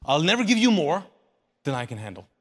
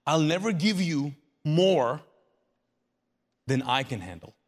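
First: Loud first half, dropping low on "than I can handle"; emphatic promise. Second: Solemn promise. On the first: Jesus insisting on his promise to his people, emphatic. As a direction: drive "I'll never give you more" out firmly. Preacher repeats the promise forcefully. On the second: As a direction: draw it out, then drop low on "than I can handle". Preacher voicing a solemn promise. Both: Acted.

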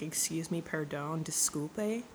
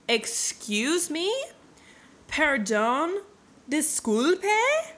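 First: Low, soft mock protest; understated disbelief. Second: High, loud questions with exaggerated rising ends; mock incredulity. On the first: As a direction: query it quietly, lifting only the last word. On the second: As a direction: stretch each word into a bigger disbelieving squeak. Hero balks at old man's claim.

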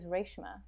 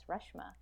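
First: Reshma said as RAYSH-ma; heritage pronunciation. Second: Reshma said as RUSH-ma, short vowel; phonetic pronunciation. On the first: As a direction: say Reshma with a long "ay": RAYSH-muh. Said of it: "my mom actually calls me Reshma". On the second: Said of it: "phonetically, that's Reshma". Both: Shown as a demonstration.

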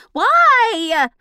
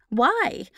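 First: Long, high, loud drawn-out why. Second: Said in the usual way. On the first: Shown as a demonstration. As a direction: stretch the why out big and loud. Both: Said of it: "The why was longer".

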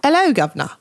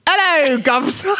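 First: Higher, posher British greeting; mock-posh British accent. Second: Hammed-up British "'ello, guv'nor"; British accent. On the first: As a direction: attempt a posh British "'ello, guv'nor". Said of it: "try to be more posh about it". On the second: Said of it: "read it with a British accent".

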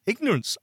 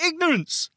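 First: Said in the usual way. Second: Ignorance said high and deliberate, as a verdict; emphatic declaration. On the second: Shown as a demonstration. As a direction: land Ignorance as a bold statement. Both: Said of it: "I'm gonna say it".

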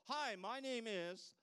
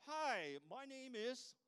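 First: Slow, louder, higher hello; drawn-out greeting. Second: Bright, higher, louder greeting; mock greeting. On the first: Retold or imitated. Greeting while reading the name tag, slow. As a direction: stretch the greeting out warmly. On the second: Greeting a stranger at a conference, cheerful. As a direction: greet them with cheerful surprise.

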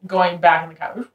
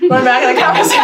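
First: Said in the usual way. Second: Fast, high, loud rewind voice; tape rewinding. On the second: Pretend. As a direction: zip the words backwards like a tape. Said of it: "best rewind noise I've ever heard".

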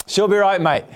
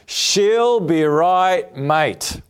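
First: Said in the usual way. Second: Unhurried, weighty title read; slow title announcement. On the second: Shown as a demonstration. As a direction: announce She'll Be Right, Mate like a sermon title, stretched slowly. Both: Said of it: "today's message is entitled".

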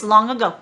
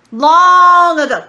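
First: Said in the usual way. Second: "Long" held very long, loud and high; booming, slow stress on "Long"; drawn-out emphasis. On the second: Acted. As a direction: stretch out "Long" in a big preacher's call, then drop onto "ago". Repeats the phrase for emphasis.

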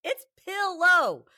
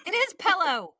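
First: Pillow said slowly, with the i of pill; correct pillow. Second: Pillow said as pellow, louder; Texas pillow. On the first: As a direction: stretch out pillow, with pill clearly in it. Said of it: "You don't go take a pill". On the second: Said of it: "our family says stupid things". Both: Shown as a demonstration.

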